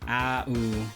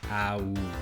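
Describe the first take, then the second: No difference in how they are said.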